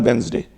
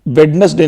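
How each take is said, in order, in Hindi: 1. बीच की d ध्वनि मौन रहती है। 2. बीच की d ध्वनि बोली जाती है। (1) "डी साइलेंट है, इसका प्रोनाउंसिएशन होता है वेंसडे" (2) "कभी भी इसको वेडनेसडे नहीं बोलते हैं"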